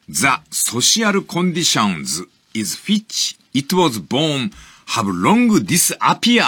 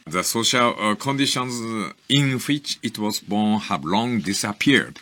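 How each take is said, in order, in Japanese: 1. 強い日本語なまりで読まれています。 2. ネイティブのような英語の発音で読まれています。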